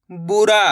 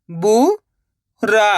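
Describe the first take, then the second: First: Said in the usual way. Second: बुरा split as rising बु, pause, रा; syllable by syllable. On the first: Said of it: "इनको आपस में लगा पढ़ना है". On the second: Shown as a demonstration. Teacher teaching how to read, बुरा broken into syllables. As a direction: sound out बुरा in two separate syllables. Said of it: "एक अक्षर का उच्चारण करके".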